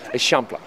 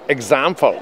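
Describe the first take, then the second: First: It is said with the Catalan pronunciation. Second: It is said like the English word example. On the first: This is the local pronunciation of the district's name. The speaker calls it right. "Tak, tak, Eixample" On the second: This is how someone who doesn't know Catalan reads it. The speaker calls it wrong. "jak ktoś nie zna katalońskiego, to przeczyta example"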